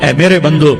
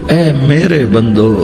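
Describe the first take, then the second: First: It is said in a plain, formal tone. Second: It is said in a tender, loving tone. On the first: The speaker calls it wrong. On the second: The speaker calls it right.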